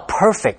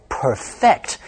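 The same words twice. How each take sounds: First: "perfect" stressed on the first syllable, PER-fect; adjective stress. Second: "perfect" stressed on the second syllable, per-FECT; verb stress. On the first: Teacher gives learners the adjective, "perfect" with first-syllable stress. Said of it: "是形容词". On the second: Teacher gives learners the verb, slow "perfect" with second-syllable stress. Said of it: "如果当动词用". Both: Shown as a demonstration.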